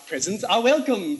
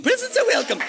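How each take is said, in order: First: Said in the usual way. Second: Presents are welcome, sung up high and coy; much higher coy reprise. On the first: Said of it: "repeats it higher". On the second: Shown as a demonstration. Host hinting to the audience for birthday gifts, high and coy. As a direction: chirp the hint for gifts in a high voice. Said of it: "repeat in a high voice".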